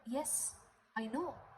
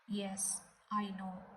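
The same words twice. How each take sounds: First: It is said in a curious, concerned tone. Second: It is said in a dismissive, indifferent tone. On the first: The speaker knows the person and wants to hear what happened. "It means, yes, I know him. What happened to him?" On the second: The speaker already knows and does not care. "It means, yes, I know. So what?"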